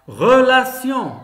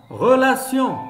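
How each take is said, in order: The two takes are said the same way.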